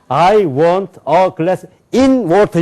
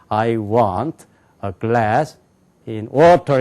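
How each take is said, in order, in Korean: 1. 'in'이라는 단어는 또렷하고 크게 말합니다. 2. 'in'이라는 단어는 조용하고 작게 말합니다. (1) "이렇게 말하면 안 돼요" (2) "작게 얘기해야 돼"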